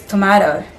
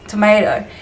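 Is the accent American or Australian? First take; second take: Australian; American. First: It is said in an Australian accent. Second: It is said in an American accent. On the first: "Here it's tomato" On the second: "normally sa American English, it's tomato"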